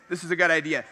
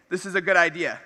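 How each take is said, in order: Both takes have the same delivery.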